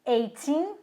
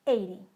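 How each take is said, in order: First: Put-on "eighteen" with a long, rising "teen"; "eighteen", weight thrown onto the last syllable; stress on the second syllable. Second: "eighty" with weight on "eigh", dropping off; "eighty", front-stressed with a short falling end; stress on the first syllable. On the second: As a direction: hit the start of "eighty", keep "ty" light. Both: Shown as a demonstration. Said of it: "Percebem a diferença?".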